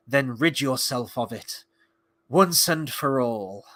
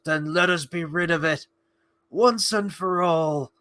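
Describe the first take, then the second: First: Slow, lightly acted solemn line; Arondir quote. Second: Slow, put-on heroic resolve; Sam Gamgee. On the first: Quoting an elf about the sword, lightly acted and slow. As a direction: quote it gravely with drawn-out words. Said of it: "He says". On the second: Imitating Sam urging Frodo on, slow put-on resolve. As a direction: draw it out as an impassioned imitation. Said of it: "And then Sam goes".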